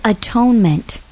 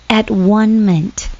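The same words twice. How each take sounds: First: Said in the usual way. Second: At one ment, slow, each part apart; split into syllables. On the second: Shown as a demonstration. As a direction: spell it out slowly: at, one, ment.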